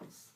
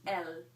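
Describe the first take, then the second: First: The final S sound is pronounced. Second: The final S sound is not pronounced. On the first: The speaker calls it wrong. "That is me pronouncing that in English" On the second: The speaker calls it right. "In French, you do not pronounce that S"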